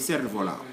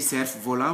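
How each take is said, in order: First: The F in cerf is silent. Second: The F in cerf is pronounced. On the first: The speaker calls it right. "we say" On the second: The speaker calls it wrong. "We don't say"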